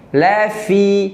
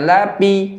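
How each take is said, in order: First: The middle consonant is an f sound. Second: The middle consonant is a p sound. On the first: The speaker calls it right. "tapi lafi" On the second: The speaker calls it wrong. "jangan lapi"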